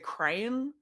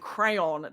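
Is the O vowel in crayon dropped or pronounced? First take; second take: dropped; pronounced. First: The O vowel in the word is dropped. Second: The O vowel in the word is pronounced. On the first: "they say crayon and there's just no O in it" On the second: "instead of saying crayon"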